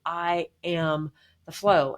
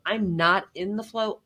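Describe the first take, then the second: First: Slow, each word given weight, "am" and "flow" stressed; "I am the flow" spoken slowly with weight on "am"; slow emphatic statement. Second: "not" lifted as the point of contrast; stress on not. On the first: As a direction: settle into the words as a firm conclusion. Contrasting not in versus am. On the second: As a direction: lean on "not" in "I'm not in the flow". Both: Real, not acted.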